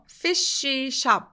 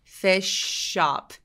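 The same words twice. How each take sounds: First: The SH sound is said twice, separately. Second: The SH sound is said once, linked. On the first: The speaker calls it wrong. "fish shop 아니고" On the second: The speaker calls it right. "바로 연결해서 발음을 하게 되는 거죠"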